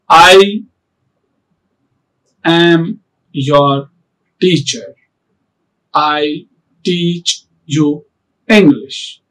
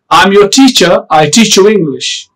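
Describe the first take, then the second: First: The words come slowly with long pauses between. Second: The words flow smoothly without any long pauses. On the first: This is not proper fluency. The speaker calls it wrong. "It's not like this. ... So this is not a proper fluency" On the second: This is proper fluency. The speaker calls it right. "So there is a fluency, proper fluency"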